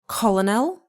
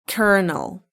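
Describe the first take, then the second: First: The first syllable sounds like 'coll' with an L. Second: The first syllable sounds like 'ker' with no L. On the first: The speaker calls it wrong. "Is it colonel? No" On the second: The speaker calls it right. "it's kernel"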